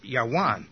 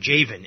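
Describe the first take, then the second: First: It begins with a Y sound and has W. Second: It begins with a J sound and has V. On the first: "in ancient times, it probably would have been pronounced Yawan" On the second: "or Javan in American pronunciation"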